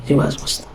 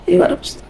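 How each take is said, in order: First: Whispered, lazy promise; a sinner brushing off the call in a whisper; mock whispered excuse. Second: Jumps much higher, a squeaky dismissive promise; mock the excuse in a thin high voice; hammed-up high-pitched brush-off. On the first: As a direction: breathe the excuse out with no voice. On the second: Sinner's excuse mocked.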